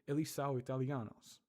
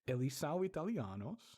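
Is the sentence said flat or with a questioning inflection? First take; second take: flat; questioning. First: It is said flat, with no inflection. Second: It carries a rising, questioning inflection.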